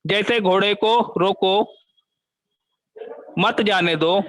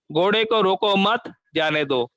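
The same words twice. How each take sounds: First: Long pause after रोको, then मत जाने दो as one phrase. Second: घोड़े को रोको मत as one phrase, then a break before जाने दो; pause after मत. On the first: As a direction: stop on रोको, hold, then run मत जाने दो together. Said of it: "वाक्य में बदल हो गया". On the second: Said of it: "दूसरे वाक्य में क्या दिया है?". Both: Shown as a demonstration.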